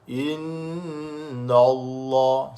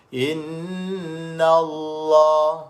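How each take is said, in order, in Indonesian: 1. Bunyi n itu tebal dan berat. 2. Bunyi n itu tipis dan ringan. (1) "Jangan baca tebal. ... Salah lah" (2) "nun tu nipis lah"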